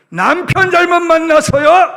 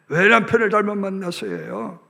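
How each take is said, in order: First: 잘못 punched high and loud with a rising end; stress on 잘못. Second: Said in the usual way. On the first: Shown as a demonstration. Preacher stressing 잘못 to the congregation. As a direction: lean hard on 잘못, lift the end.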